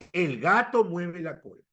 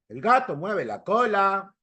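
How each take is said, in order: First: It is said in the speaker's own accent. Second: It is said in a Mexican accent. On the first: "yo digo" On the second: "Tu amigo mexicano"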